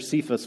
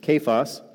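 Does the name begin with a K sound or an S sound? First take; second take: S sound; K sound. First: The name begins with an S sound. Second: The name begins with a K sound. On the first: The speaker calls it wrong. "I called Peter Cephas for a long time" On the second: The speaker calls it right. "It's Kephas"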